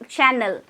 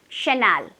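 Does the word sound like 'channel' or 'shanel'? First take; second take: channel; shanel. First: The word is said like 'channel'. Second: The word is said like 'shanel'. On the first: The speaker is unsure of the name. The speaker calls it wrong. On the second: The speaker is confident about the name. The speaker calls it right.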